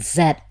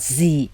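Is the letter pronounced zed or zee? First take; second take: zed; zee. First: The letter is pronounced zed. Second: The letter is pronounced zee. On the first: This is the British way. The speaker calls it right. "like in zebra crossing for for the British" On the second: This is the American way. The speaker calls it wrong. "not Z"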